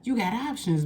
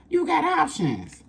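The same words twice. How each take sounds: First: Said in the usual way. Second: Much higher, slow and sing-song; sing-song high emphasis; high cooing emphasis. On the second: Shown as a demonstration. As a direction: coo "You got options" way up high and slow.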